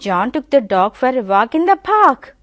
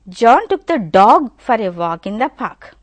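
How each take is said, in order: First: The stress falls on the word park. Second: The stress falls on the word dog. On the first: It was the park where they walked. "The stress is on park" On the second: It was the dog that he took. "if you give stress on dog"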